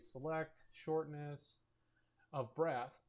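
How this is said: There is a pause after "shortness".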